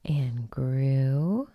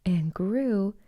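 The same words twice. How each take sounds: First: Grew drawn out rising; building wonder; rising tune. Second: Grew with falling close; growing wonder ends; falling tune. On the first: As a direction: stretch grew upward. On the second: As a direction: settle grew down. Falling repetition. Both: A narrator's reading.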